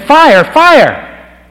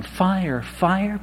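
First: Top-of-the-lungs shout, very high and loud; a man pounding harder to wake a sleeping family, yelling his loudest; louder yell. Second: A half-hearted yell, softer and a bit higher; a shy man imagines a neighbour hearing him call fire, barely calling out; mock timid yell. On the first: Retold or imitated. All-out shouted warning. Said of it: "he pounded louder". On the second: Embarrassed, held-back call of fire. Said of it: "Here I am yelling".

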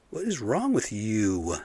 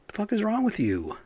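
First: Stern repeat. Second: High, indignant shout of disbelief; furious demand. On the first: Asking the cops again, slow and stern. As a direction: drop back down and press the question slowly. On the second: Cursing the cops who handcuffed a girl, high and furious. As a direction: fling it at the cops in real outrage. Outraged over child maced by police. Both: Real, not acted.

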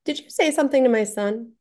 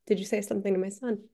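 First: Raised, pointed confronting question; firm question. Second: Softer, faster, gentle repeat of the question; calming repeat after promising no trouble; softer reassuring ask. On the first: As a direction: direct challenge to a teenager. Confronting the older kid. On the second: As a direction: ease off so he'll own up. After assuring he won't get trouble. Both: Retold or imitated.

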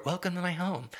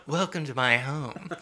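First: Softer, a touch of put-on Southern; mock Southern accent. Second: Mock Southern accent. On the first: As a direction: lightly imitate the bad accent. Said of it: "the bad Southern accent". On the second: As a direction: imitate a bad Southern hostess. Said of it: "that Southern accent was one of the worst".

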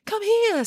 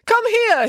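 First: Echoing call. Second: High, raised call. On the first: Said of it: "said Echo". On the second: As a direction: call someone over from afar. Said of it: "he called". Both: A narrator's reading.

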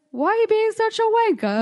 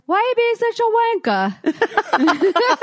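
First: Put-on British accent. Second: Higher, loud mock British insult; British accent. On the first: [name] retelling her British insult to the rude guy, laughing. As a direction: toss off wanker in a fake British accent. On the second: Drunk [name] insulting the rude guy in a British accent. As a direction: spit out wanker like a Brit. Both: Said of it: "with a British accent".

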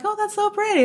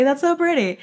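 First: Higher, marveling at the sunset; a hint of awe; delighted gasp. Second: Said in the usual way. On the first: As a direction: breathe out in wonder.

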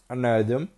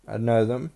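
Both takes have the same delivery.

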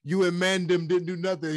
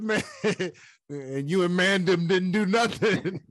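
First: Put-on high, laughing London roadman accent. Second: Put-on quoting Kamaru in a London accent; london roadman accent. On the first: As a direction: repeat the quote in a London street accent. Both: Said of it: "they try to use different accents".

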